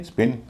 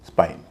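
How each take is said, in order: First: स्पिन with a short i; short i sound. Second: स्पाइन with an "eye" vowel; long "eye" sound. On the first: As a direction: say स्पिन with a brief "ih" vowel. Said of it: "आई का उच्चारण छोटी ई होगा". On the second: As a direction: say स्पाइन with a gliding "ai". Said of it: "वहाँ उसका उच्चारण होगा आई". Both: Shown as a demonstration.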